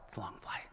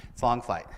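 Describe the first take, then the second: First: It's a long flight whispered, no voice; a weary whispered aside. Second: Said in the usual way. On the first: Acted. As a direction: breathe it out as a tired aside. Whispered repeat of a line.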